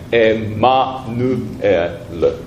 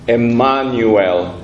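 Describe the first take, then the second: First: The middle syllable is pronounced nu. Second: The middle syllable is pronounced nyu. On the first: This is the Latin way of saying it. The speaker calls it right. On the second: This is the English way of saying it. The speaker calls it wrong. "英語じゃないのでエマニュエルとは言いません。"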